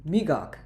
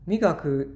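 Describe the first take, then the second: First: The final vowel is dropped after the k. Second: The word ends with a full final vowel.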